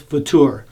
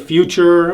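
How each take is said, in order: First: It sounds like the German word Futur. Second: It sounds like the English word future. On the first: The speaker calls it right. "I think the correct pronunciation is Futur" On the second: The speaker calls it wrong. "many people say future or whatever"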